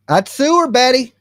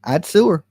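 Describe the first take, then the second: First: I'd sue her, Betty — выше и громче; louder sue threat. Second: Said in the usual way. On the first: Pretend. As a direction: push it up, pitched high.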